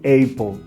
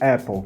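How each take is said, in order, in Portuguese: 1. A primeira vogal é longa, como 'ay'. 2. A primeira vogal é curta, como em 'cat'. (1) "eu não leio Apple" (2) "eu leio Apple"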